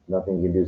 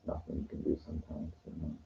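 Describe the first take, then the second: First: Said in the usual way. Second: Very hushed, low and quick; whispering. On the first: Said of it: "So, I'm sorry, I'm". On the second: Real, not acted. Man recounting a failed street pickup, whispering. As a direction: murmur it barely audibly. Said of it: "I'm whispering".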